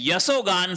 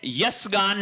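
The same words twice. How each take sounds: First: यशोगान with an o, "ya-so-gaan"; correct form. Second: यशगान without an o, "yas-gaan"; wrong form. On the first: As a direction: sound the o in यशोगान. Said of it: "यशोगान शब्द होता है". (यशोगान में "शो" साफ़) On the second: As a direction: join यशगान straight from s to g. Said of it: "यशगान नहीं होता है". (यशगान, बीच में "ओ" नहीं) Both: Shown as a demonstration.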